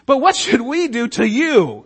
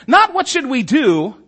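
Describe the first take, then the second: First: "to you" leaned on, falling at the end; the point lands on "to you"; stress on to you. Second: "Not what should we do" set up as the reading to reject; wrong reading first. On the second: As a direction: stress on Not, higher and a bit louder. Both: Shown as a demonstration.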